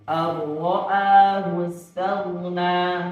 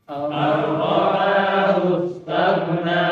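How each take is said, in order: The two takes are said the same way.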